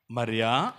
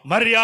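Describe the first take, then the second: First: Low, soft tender call of her name; Jesus calling softly. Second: Calling her name. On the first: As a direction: call her name gently, barely above a breath. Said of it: "ఆయన అంటున్నాడు". (మృదువుగా, తక్కువ స్వరంతో పిలుపు) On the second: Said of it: "ఆ మాట మరలా వినబడుతుంది". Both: Acted.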